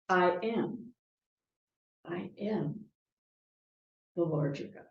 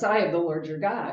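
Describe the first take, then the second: First: There is a pause after 'am'. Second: It is said without any pause.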